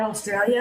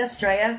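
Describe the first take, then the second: First: "Australia" with every syllable sounded; full pronunciation. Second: "Australia" squeezed to Straya, L dropped; shortened Aussie form. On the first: Shown as a demonstration. American asks what her friend meant, "Australia" in full. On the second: Retold or imitated. American echoes her friend's word, "Australia" shortened to Straya. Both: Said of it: "Beck just said Australia".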